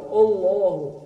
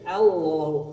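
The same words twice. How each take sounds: First: The opening sound is heavy and thickened. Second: The opening sound is light and thin. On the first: The speaker calls it wrong. "Tong dibaca Allahu" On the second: The speaker calls it right. "tapi Allahu"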